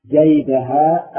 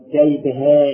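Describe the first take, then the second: First: Said in the usual way. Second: جيدها ending in a long "ee/eh" in place of "aa"; imala pronunciation. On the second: Shown as a demonstration. Teacher demonstrates the rule to students, imala on جيدها. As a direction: tilt the final alif of جيدها toward e. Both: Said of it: "كلام على".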